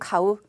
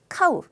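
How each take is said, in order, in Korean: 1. 악센트가 첫 음절에 있지 않아요. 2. 악센트가 첫 음절에 있어요. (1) "살 때는 가우라고 읽지만은" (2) "악센트가 저 카에 있어요"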